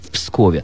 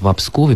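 First: The preposition has no vowel: 'v Pskove'. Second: The preposition has a vowel: 'vo Pskove'. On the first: The speaker calls it wrong. "это неверная, исторически неправильная форма" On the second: The speaker calls it right. "нужно правильно говорить «во Пскове»"

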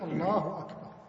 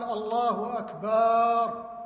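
First: No vowel is stretched beyond normal length. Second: The vowel after b is stretched. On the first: God is the greatest. The speaker calls it right. "إنما يقول الله أكبر" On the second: The meaning is distorted. The speaker calls it wrong. "مد الباء"

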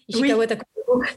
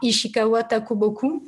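First: The name is said fast. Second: The name is said slowly. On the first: "C'est marrant de le dire vite" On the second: "Je vais le dire plus lentement"

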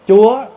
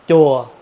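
First: The word has a high rising tone. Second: The word has a low falling tone. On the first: It means God. "dấu sắc" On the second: It means pagoda. "dấu huyền"

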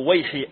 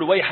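First: The word ends with a non-'a' vowel. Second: The word ends with an 'a' vowel. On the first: The speaker calls it wrong. "ما يصلح تقول ويح أو ويحي" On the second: The speaker calls it right. "يلزمها أيضا تشكيلها بالفتحة في آخرها، يعني تقول ويح عمار"

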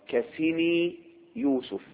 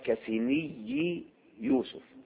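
First: The ya sound in the first word is single. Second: The ya sound in the first word is doubled. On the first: The speaker calls it right. "يقال كسني يوسف" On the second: The speaker calls it wrong. "ولا يقال كسني يوسف"

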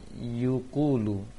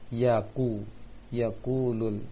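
First: The first syllable has the vowel u. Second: The first syllable has the vowel a. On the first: The speaker calls it wrong. "Farel membaca yukulu, ... ya-nya terbaca dhammah" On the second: The speaker calls it right. "Seharusnya fathah"

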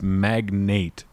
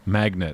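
First: The second syllable sounds like 'nate'. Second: The second syllable sounds like 'net'. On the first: The speaker calls it right. "no, it's magnate" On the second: The speaker calls it wrong. "both times they say magnet"

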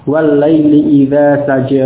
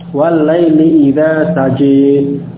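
First: The final vowel is a plain open 'a'. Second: The final vowel is tilted toward 'e'.

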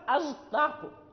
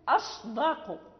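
First: The consonant before d sounds like a z. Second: The consonant before d is a clear emphatic s. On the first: The speaker calls it wrong. "إذا لم نحرص عليها صارت أصدق تصبح زاي" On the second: The speaker calls it right. "فيجب تخليصها وبيانها"

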